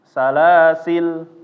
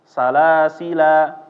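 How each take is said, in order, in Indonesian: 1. L di akhir kata tidak dibunyikan. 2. Kata ini berakhir dengan vokal panjang. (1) "dibuang alifnya ya, itu bisa juga" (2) "dia menetapkan alif ya ... dia dibaca alifnya"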